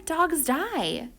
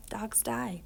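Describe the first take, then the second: First: "Dogs die" pressed up higher, earnest; a boy stating a hard truth to mom; insistent child. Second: "Dogs die" whispered, breathy and far softer; haunted whisper. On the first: Sick boy answering his mom. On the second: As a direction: let the words echo like a memory. Boy's own words echoing inside. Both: Acted.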